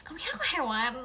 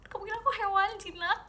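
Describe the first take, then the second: First: A first mock-offended question; indignant. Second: Higher and faster mock outrage; more outraged. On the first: Asking the viewer who called her tame, mildly indignant. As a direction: ask it half-offended. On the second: Repeating the question to the viewer who called her tame, higher mock outrage. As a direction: push the question up in disbelief. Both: Real, not acted. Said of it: "yang ini jinak sih".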